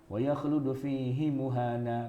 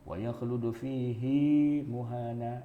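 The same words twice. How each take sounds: First: The vowel of 'hi' in 'fihi' is short. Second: The vowel of 'hi' in 'fihi' is lengthened. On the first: This is how it is written. "tulisannya kan" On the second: This is how it is recited.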